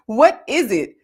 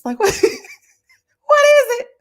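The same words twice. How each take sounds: First: WHAT IS IT punched out loud; emphatic demand. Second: High, loud question through laughter; laughing disbelief. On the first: Host repeating her question about the snow, emphatic demand. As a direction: land "What is it" hard, louder, at usual pitch. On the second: Host joking about kids stuck home in snow, laughing disbelief. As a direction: crack up while asking. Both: Real, not acted.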